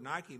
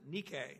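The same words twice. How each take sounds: First: The word is said with its usual English pronunciation. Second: The word is said with a Greek pronunciation.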